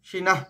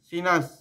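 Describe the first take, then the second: First: The word ends with an h sound. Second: The word ends with an s sound. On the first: The speaker calls it wrong. "এরকম শোনাবে না" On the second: The speaker calls it right. "দন্ত স শোনাবে"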